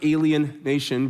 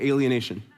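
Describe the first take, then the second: First: It is split into two separate words. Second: It is said smoothly as one word. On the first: A nation of aliens. The speaker calls it wrong. "Not alien nation" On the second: Being cut off from others. The speaker calls it right. "but alienation"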